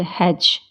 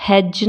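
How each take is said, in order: First: हेज ending on a simple j; हेज, no separate d; silent D. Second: हेज with d before j; हेज, d stop held into j; sounded D. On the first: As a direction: say हेज as hej. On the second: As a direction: say हेज as hed-juh. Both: Shown as a demonstration. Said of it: "हेज नहीं बोलते".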